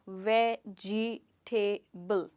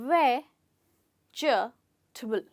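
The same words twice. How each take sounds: First: The word is said with four syllables. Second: The word is said with three syllables. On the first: The speaker calls it wrong. "बहुत सारे लोग इसे कहेंगे वेजिटेबल, चार sounds" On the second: The speaker calls it right. "सिर्फ तीन sounds हैं"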